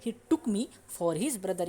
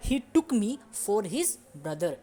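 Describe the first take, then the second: First: Slow second reading of the sentence; slow repeat. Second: Very slow, careful English example; slow model sentence. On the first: Teacher repeating the sentence for students. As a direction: repeat it slowly once more. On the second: Teacher modelling the English sentence slowly. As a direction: lay out each word slowly for the class. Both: Shown as a demonstration. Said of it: "तो".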